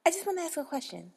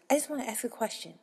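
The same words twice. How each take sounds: First: Higher, fast pushy customer. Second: Imitating rude customer. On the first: Retold or imitated. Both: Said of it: "come up and say".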